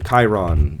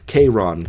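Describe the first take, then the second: First: "Chiron" said as KY-ron; Chiron with KAI. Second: "Chiron" said as KAY-ron. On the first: Offering another reading of the ferryman's name, "Chiron" as KY-ron. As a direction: say "Chiron" with first syllable rhyming with "sky". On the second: Offering one reading of the ferryman's name, "Chiron" as KAY-ron. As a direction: say "Chiron" with first syllable like "kay". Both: Shown as a demonstration. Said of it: "whatever you want".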